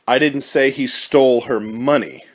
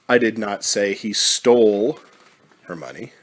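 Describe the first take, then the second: First: The word money is stressed. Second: The word stole is stressed. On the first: Something other than the money was taken. "Implies that something was stolen, but perhaps it was not the money" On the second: The money was perhaps given, not taken. "Implies that the money is gone, but maybe it wasn't taken, maybe it was given"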